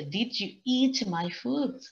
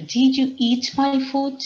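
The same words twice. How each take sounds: First: Slower reread, pointing out the structure; teacher's reread. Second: High, loud, slow accusing dog voice; dog asking. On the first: Shown as a demonstration. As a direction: read it out again slowly, line for a class. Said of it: "fíjense, la estructura está bien hecha". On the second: Acted. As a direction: play the dog demanding an answer, higher and louder. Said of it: "the dog asked".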